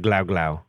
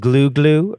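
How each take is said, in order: First: The vowel does not sound like 'glue'. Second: The vowel sounds like the one in 'glue'. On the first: The speaker calls it wrong. "I always thought it was glau glau" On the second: The speaker calls it right. "it's glue glue because it's like glue glue glue"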